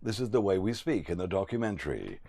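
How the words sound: The pitch and volume fall at the end. It is a statement of narration. The speaker calls it right. "we're usually asked to go down at the end of every sentence"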